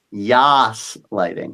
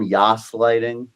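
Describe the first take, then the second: First: "Yas" slow with a Y, falling; slow "Yas lighting" with Y sound. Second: "yas" said slowly, with a Y not a G; slow "yas lighting", stressing "yas". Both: Shown as a demonstration. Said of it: "not gaslighting".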